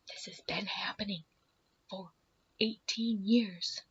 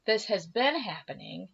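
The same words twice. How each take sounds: First: Whispering. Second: Said in the usual way. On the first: Retold or imitated. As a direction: confide it in a bare whisper. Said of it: "we're whispering, mind you, in the stall". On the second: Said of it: "and we're whispering, mind you".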